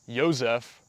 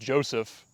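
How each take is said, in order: First: The name is said in an altered form. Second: The name is said in its standard form. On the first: Someone else said it carelessly. The speaker calls it wrong. "she mispronounced my name" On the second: The name's owner says it properly. The speaker calls it right. "It's Joseph"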